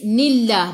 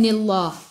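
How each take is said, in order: First: The L sound is light and thin. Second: The L sound is heavy and thick. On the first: The speaker calls it right. "Baca nipis" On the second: The speaker calls it wrong.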